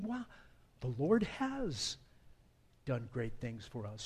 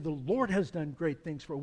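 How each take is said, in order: First: It sounds amazed, like waking from a dream. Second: It sounds firm and affirming, a calm statement.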